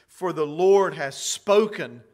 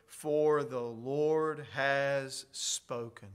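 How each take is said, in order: First: "Lord" punched louder, falling at the end; emphatic. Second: Slow and hushed, reading the verse; quiet scripture reading. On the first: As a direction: sign it loud, like a signature. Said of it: "that is his John Hancock". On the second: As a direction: let the words "for the Lord has spoken" fall softly and slowly. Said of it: "how the word Lord is all capital letters". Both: Shown as a demonstration.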